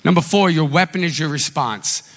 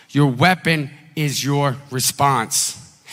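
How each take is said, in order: First: Said in the usual way. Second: "Your weapon is your response" repeated slowly, each word weighed; slow it right down so they can write it. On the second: Shown as a demonstration. Pastor repeats the sermon point slowly for note-taking. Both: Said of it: "Write this down".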